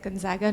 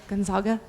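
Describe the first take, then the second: First: The name is given an American English pronunciation. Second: The name is given an Italian-style pronunciation. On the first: This is how the university's own community says it. The speaker calls it right. "We say it Gonzaga" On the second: This is how it would be said in Italy. The speaker calls it wrong. "not Gonzaga, even though we're here in Italy"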